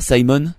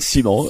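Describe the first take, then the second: First: The name is said with an English pronunciation. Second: The name is said with a French pronunciation. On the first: "ça est mieux en anglais" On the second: "Un accent très français"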